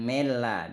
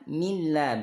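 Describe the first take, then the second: First: The vowel after the m sounds like 'eh'. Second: The vowel after the m sounds like 'ee'. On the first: The speaker calls it wrong. "bukan mela" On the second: The speaker calls it right. "milla bukan mela"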